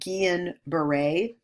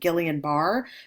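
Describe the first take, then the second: First: The name is not read the way it is spelled. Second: The name is read the way it is spelled. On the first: The speaker calls it right. "but it's pronounced" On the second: The speaker calls it wrong. "It looks like"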